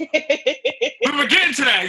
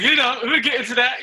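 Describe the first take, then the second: First: Laughing. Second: Said in the usual way. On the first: Real, not acted. Teasing host, laughing.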